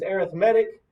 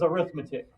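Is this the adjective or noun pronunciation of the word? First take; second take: adjective; noun. First: It is said with the adjective stress pattern. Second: It is said with the noun stress pattern. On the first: The word describes a kind of sequence. "Adjective is arithmetic" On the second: The word names the subject of mathematics. "noun is arithmetic"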